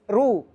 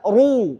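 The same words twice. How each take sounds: First: The r syllable sounds light and thin. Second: The r syllable sounds heavy and full. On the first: The speaker calls it wrong. "ini ru tipis, ru, rumah itu tipis" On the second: The speaker calls it right. "Harus baca tebal"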